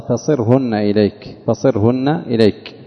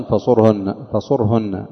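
First: فصرهن said "fa-sir-hunna", i after the sad; kasra on the sad. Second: فصرهن said "fa-sur-hunna", u after the sad; damma on the sad. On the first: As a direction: say فصرهن with a short i, slowly. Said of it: "قرأوا بكسر الصاد". (فصرهن بكسر الصاد) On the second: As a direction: say فصرهن with a short u. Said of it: "بضم الصاد". (فصرهن بضم الصاد) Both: Shown as a demonstration.

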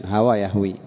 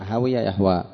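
First: هوى يهوي said hawā yahwī; fatha then kasra. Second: هوي يهوى said hawiya yahwā; i after w in هوي, long a ending يهوى; kasra then fatha. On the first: Teacher shows the verb for falling, هوى يهوي as hawā yahwī. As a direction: open a in هوى, long i ending يهوي. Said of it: "الماضي بالفتح والمضارع بالكسر". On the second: Teacher shows the verb for loving, هوي يهوى as hawiya yahwā. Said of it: "بالكسر في الماضي والفتح في المضارع". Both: Shown as a demonstration.

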